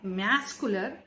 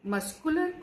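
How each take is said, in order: First: The word is said with heavy, exaggerated pressure. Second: The word is said in an ordinary way.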